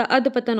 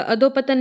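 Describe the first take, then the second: First: अधपतन with no o; correct form demo. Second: अधोपतन with long "dho"; wrong form demo. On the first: Teacher corrects it, अधपतन without the middle o. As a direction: say अधपतन as "adh-patan". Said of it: "होता है". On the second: Teacher shows the mistake, अधोपतन with an o. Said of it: "नहीं होता". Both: Shown as a demonstration.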